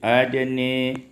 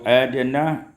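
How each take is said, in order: First: The final vowel is tilted toward e. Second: The final vowel is a plain open a.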